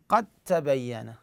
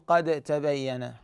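First: The d merges fully into a doubled t. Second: The d is pronounced separately with a bounce. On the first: The speaker calls it right. "قد شوفوا من القاف انتقل للتاء" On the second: The speaker calls it wrong. "ما أقول قد تبين، حتى القلقلة"

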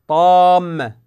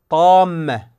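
Both takes have the same delivery.

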